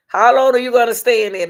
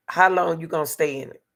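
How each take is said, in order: First: Loud and insistent, hitting long; raised voice, stress on long; louder, pressing question. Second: Said in the usual way. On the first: Shown as a demonstration. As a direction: demand an answer, loud and firm. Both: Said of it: "I said, how long are you gonna stay in it?".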